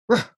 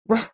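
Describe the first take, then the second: First: The R is said as a short growled ruh. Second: The same.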